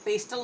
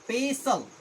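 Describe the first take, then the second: First: The word is said with a t sound. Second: The word is said without a t sound. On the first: The speaker calls it wrong. "पेस्टल नहीं बोलना है" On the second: The speaker calls it right. "यहाँ पे टी silent है"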